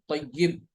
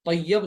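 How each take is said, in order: First: तय्यब with a short i before b, tayyib; corrected vowel. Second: तय्यब with a short a before b, tayyab; rejected vowel. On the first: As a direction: say तय्यब as tay-yib. (तय्यब, या के नीचे ज़ेर के साथ) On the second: (तय्यब, या पर ज़बर के साथ) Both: Shown as a demonstration. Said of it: "तय्यब नहीं".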